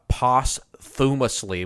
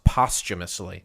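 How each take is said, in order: First: It is said as a literal, letter-by-letter reading. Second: It is said with its usual standard pronunciation. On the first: The speaker calls it wrong. "or uh, posthumously" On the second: The speaker calls it right. "it's pronounced posthumously"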